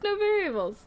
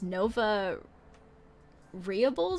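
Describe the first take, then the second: First: The name is split as no, then variables. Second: The name is split as Nova, then Reables. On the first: The speaker calls it right. "but it's no variables" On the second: The speaker calls it wrong. "I've always read your name as Nova Reables"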